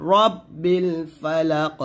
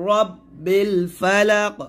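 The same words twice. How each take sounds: First: রব্বিল with a short র. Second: রব্বিল said with ra, the wrong way; mistake demo of রব্বিল; wrong long ra. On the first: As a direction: clip the র in রব্বিল. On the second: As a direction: say রব্বিল with a drawn ra. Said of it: "এখানে রা বলবেন না". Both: Shown as a demonstration.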